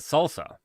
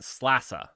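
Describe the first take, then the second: First: It is said like the word salsa. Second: It is said with the sl sound first. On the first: This is how others say the name. "they pronounce it salsa" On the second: This is the speaker's own way of saying the name. "I'm pronouncing it slassa"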